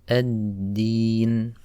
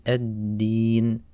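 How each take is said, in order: The two takes are said the same way.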